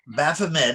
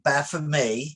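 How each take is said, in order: First: The name is said with an American pronunciation. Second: The name is said with a French pronunciation. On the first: The speaker calls it wrong. "is what Americans say" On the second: The speaker calls it right. "but it's really"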